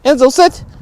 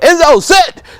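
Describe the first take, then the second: First: The command is said calmly. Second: The command is shouted loudly.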